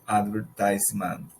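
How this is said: It is said in an American accent. "but in American English sounds advertisement"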